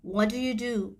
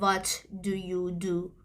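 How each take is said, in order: First: The words run together, with 'do you' shortened. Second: Each word is pronounced separately and fully. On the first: The speaker calls it right. "خیلی شورت میشه و مخفف میشه" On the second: The speaker calls it wrong. "نمیگه"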